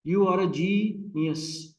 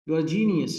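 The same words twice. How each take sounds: First: Very slow, GE of genius stretched; GEE-nius, first syllable held long; stressed first syllable. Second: Said in the usual way. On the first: Shown as a demonstration. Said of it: "Longer, louder and higher". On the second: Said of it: "British speaker तो हम लोग हैं नहीं".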